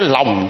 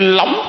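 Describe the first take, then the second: First: The name is said on a falling tone. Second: The name is said on a rising tone. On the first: The person is saddened by dislike. "buồn quá xuống cái Lòng" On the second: The person is elated by praise. "phấn khởi lên tới Lóng"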